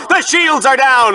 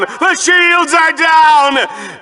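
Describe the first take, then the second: First: Said in the usual way. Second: Slow, hammed-up dramatic shout, much higher and stretched; milk the doom for all it's worth; overly dramatic. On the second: Shown as a demonstration. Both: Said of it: "Was that too dramatic?".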